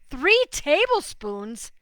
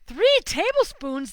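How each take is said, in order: First: It is said harshly, with strong disbelief. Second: It is said gently, with mild surprise.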